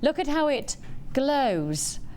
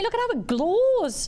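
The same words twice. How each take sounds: First: Glows is said without the northern English vowel. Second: Glows is said with a northern English vowel. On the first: "let's try and say the word glow without" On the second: "that was a very northern way of saying glow"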